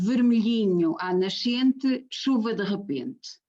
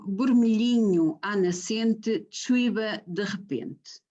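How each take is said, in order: First: The words use the usual V sounds throughout. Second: The words use B sounds where V is usual.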